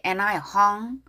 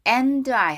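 First: "and" reduced to a light "un"; weakened AND. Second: AND fully sounded with a clear d; over-strong AND. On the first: Teacher modelling the line for learners, weak "and". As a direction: drop the d in "and", glide into I. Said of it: "더 약하게". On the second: Teacher showing learners what to avoid, over-strong "and". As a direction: hit "and" hard before I. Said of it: "하지 말고 더 약하게". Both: Shown as a demonstration.

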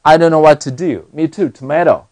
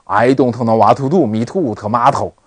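First: "tomato" with light t's from the gum ridge; natural English t and d in "what to do", tongue clear of the teeth. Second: "tomato" with hard puffy t's, tongue on the teeth; "I don't know what to do" in a comically Chinese-accented way; teeth-touching t's. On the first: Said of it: "你在这个地方一定不能碰牙齿". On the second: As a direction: mimic a Chinese learner's English, every t in "to do" and "tomato" heavily struck. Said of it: "你会觉得很搞笑". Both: Shown as a demonstration.

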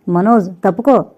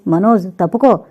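First: Loud urgent cry to get out of the way; shouted warning. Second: Loud dying cry of warning; a final desperate yell; last shout. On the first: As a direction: yell to push him aside. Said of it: "అని అరుస్తూ". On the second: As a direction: shot grandfather's last warning to Manoj. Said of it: "అంటూ చివరిగా అరిచాడు". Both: A narrator's reading.

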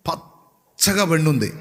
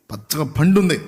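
First: Slow, drawn-out పచ్చగా పండుంది with a falling end; slow, marvelling పచ్చగా పండుంది; slow emphasis. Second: పచ్చగా పండుంది at normal pace, a bit firmer, falling on పండుంది; plain, firm పచ్చగా పండుంది; firm repeat. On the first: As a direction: savour పచ్చగా పండుంది slowly. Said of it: "ఒక్క పొలం మాత్రం". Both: Shown as a demonstration.

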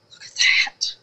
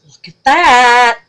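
First: Whispered awe at "that"; hushed wonder before the outburst. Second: Loud, slow, higher "Look at THAT"; loud excited repeat after the whisper; excited exclaim. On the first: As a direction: breathe "Look at that" in awe. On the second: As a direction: belt "Look at that" with delight. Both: Real, not acted. Hushed then loud marvel.

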